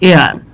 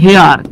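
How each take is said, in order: First: The word starts directly with the vowel. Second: The word starts with an audible h sound. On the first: The speaker calls it right. "কিন্তু আসলে এটা উচ্চারণ কি এয়ার" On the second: The speaker calls it wrong. "এটা মনে হবে হেয়ার"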